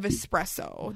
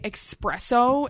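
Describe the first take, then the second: First: The word begins with an 'es' sound. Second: The word begins with an 'ex' sound. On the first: The speaker calls it right. "There's an S, not an X" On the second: The speaker calls it wrong. "People here say espresso"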